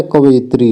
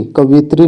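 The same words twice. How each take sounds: First: कवित्री opened out as "ka-va-yit-ri"; correct pronunciation. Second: कवित्री with short I, "ka-vit-ri"; wrong pronunciation. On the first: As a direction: add a "ya" glide inside कवित्री. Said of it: "कवित्री होता है". (कवित्री को 'कवयित्री' जैसा बोलें) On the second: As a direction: make the middle of कवित्री a quick "vit". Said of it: "कवित्री नहीं होता है". (कवित्री में छोटा 'वि' बोलें) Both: Shown as a demonstration.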